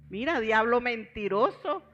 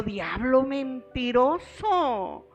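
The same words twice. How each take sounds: First: Said in the usual way. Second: "Diablo mentiroso" dragged out slowly, every syllable weighted; slow, drawn-out rebuke. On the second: Real, not acted. Rebuking the devil, slow and emphatic. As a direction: stretch "mentiroso" long and firm. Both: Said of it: "Dije yo".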